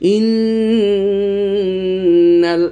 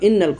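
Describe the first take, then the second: First: It is said slowly, with a held nasal n. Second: It is said quickly, as in spelling. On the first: "এত তাড়াতাড়ি কিন্তু উচ্চারণ করব না" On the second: "খুব তাড়াতাড়ি"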